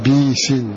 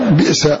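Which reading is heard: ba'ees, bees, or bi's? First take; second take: bees; bi's. First: A kasra on b, then long ee, no glottal stop. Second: A kasra on b, then a vowelless glottal stop. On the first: "باء مكسورة بعدها ياء" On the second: "بكسر الباء وبعدها همزة ساكنة"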